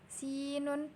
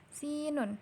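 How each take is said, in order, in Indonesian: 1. Vokal pertama diucapkan panjang. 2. Vokal pertama diucapkan panjang.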